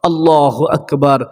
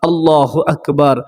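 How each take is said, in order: Both takes have the same delivery.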